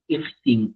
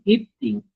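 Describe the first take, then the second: First: Said in the usual way. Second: Raised repeat. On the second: Shown as a demonstration.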